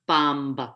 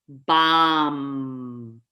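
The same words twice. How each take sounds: First: A b sound is heard after the m. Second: The word ends on the m sound. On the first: The speaker calls it wrong. "What do I hear all the time?" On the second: The speaker calls it right. "You want to finalize that word with the final M"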